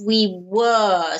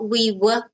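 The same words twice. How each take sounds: First: The word 'were' is long and fully pronounced. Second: The word 'were' is short and reduced. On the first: The speaker calls it right. "So it's a longer sound" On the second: The speaker calls it wrong. "not we were"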